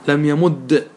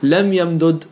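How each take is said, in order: First: The two d sounds merge into one doubled d. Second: The two d sounds are split by a vowel. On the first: "إدغام" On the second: "فك"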